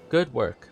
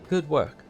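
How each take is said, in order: First: It is said in the speaker's ordinary voice. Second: It is said in a put-on character voice.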